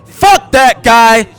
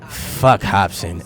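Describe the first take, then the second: First: It is said forcefully, with confidence. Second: It is said in a nonchalant, casual way.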